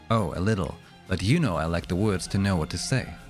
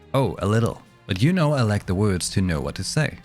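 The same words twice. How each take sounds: First: The voice sounds more compressed and forced through. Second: The voice sounds less compressed and more open.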